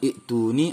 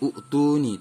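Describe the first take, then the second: First: The word opens with a short i sound. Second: The word opens with a u sound. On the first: "bukan ituni" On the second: "atau utuni"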